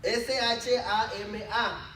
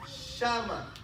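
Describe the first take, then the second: First: "shama" stressed on its last A; stress on final A. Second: Said in the usual way. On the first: Shown as a demonstration. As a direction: put the accent of "shama" on the final syllable, sha-MA. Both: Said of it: "porque lleva acento en la A".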